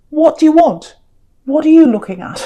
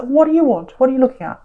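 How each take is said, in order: First: Louder, higher, a wary snapping challenge; like someone guarding himself, calling over his shoulder; defensive challenge. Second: Said in the usual way. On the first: Pretend. Card figure glaring at the King of Cups, defensive and louder. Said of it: "And, and you're saying".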